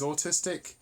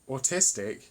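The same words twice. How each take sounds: First: The stress falls on an unexpected syllable. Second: The stress falls on the usual syllable. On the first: The speaker calls it wrong. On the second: The speaker calls it right.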